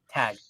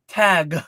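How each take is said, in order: First: The final G is soft and barely released. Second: The final G is strongly released. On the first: "I don't enunciate the G so much" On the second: "some people really do like enunciate the end like tag"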